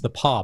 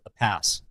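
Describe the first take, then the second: First: The final s sound is silent. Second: The final s sound is pronounced. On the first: The speaker calls it right. "no, it's the Paw" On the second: The speaker calls it wrong. "somebody called it the Pass"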